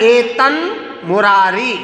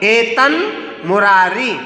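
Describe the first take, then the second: Both takes have the same delivery.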